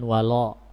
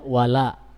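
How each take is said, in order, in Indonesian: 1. Vokal setelah l adalah o bulat. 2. Vokal setelah l adalah a tipis. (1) "jangan walo" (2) "Dibacanya wala"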